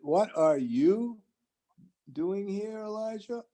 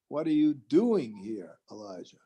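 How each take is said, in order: First: The stress is on Elijah. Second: The stress is on doing.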